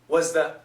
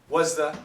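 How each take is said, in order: No difference in how they are said.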